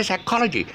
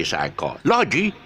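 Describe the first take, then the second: First: "psychology" with CHOL high and clear; teacher's right version, psy-CHOL-ogy, much higher pitched; correct second-syllable stress. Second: Mis-stress psychology on "lo"; teacher's wrong example, psycho-LO-gy; wrong late stress. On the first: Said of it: "You gotta say psychology". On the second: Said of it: "You can't say psychology". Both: Shown as a demonstration.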